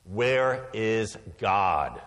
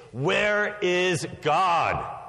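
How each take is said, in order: First: Slow, drawn-out stern question; sterner pastor. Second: Slow, higher and louder booming demand; booming pastor. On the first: Pastor presses the boy, slow and stern. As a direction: lean on it like a booming pastor. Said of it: "in an even sterner tone". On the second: Pastor shakes his finger at the boy, booming. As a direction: raise the voice and boom it at the boy. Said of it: "raised his voice even more". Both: A narrator's reading.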